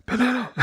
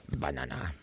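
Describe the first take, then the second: First: Mock ASMR banana. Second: Banana, murmured low and soft under the breath. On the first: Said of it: "in a really, like, A S M R-y way". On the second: Streamer trying out banana for viewers, soft and low. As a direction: say banana quietly, almost to yourself. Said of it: "I said banana in many different ways". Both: Shown as a demonstration.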